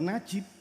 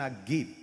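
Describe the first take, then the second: First: The middle consonant is a j sound. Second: The middle consonant is a hard g sound. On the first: "Mboten najib" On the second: "diceluk Yan Nagib"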